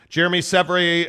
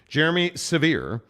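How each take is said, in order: First: The surname is not said like 'severe'. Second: The surname is said like the word 'severe'. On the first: The speaker calls it wrong. "why can I not say that right?" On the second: The speaker calls it right. "It's severe"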